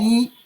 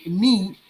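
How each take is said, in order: First: "ni" with the I held longer. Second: "ni" with a clipped short I. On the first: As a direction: stretch the I in "ni". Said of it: "it's like we prolong the I a little bit". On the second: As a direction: cut the I in "ni" short. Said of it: "we shorten the I". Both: Shown as a demonstration.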